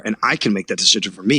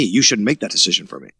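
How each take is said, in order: First: "me" pushed up with a rising tune at the end; stress on me. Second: "You" hit hard at the start, falling to the end; stress on you. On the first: Telling the boss off, landing hard on "me". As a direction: lean on "me" and let it lift. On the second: Telling the boss off, hitting "You" firmly. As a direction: punch "You" and drop the line down. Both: Retold or imitated. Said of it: "I got really mad".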